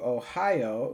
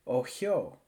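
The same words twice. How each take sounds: First: It is said in the speaker's own accent. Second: It is said imitating a Russian accent.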